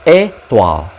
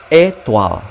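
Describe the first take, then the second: Both takes have the same delivery.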